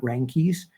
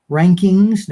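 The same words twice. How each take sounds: First: Rankies said clipped to ee with no ng; wrong pronunciation. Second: Rankings said loud and clear with the full ng ending; correct pronunciation. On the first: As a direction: rankies as a sloppy slip of rankings. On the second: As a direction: rankings stressed and loud, every sound clear. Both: Shown as a demonstration. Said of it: "not rankies".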